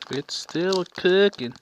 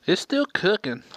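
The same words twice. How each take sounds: First: Slow southern drawl on cooking; southern accent. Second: Said in the usual way. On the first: Real, not acted. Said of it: "Dang, I sounded so southern right there". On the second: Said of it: "I sounded so southern right there".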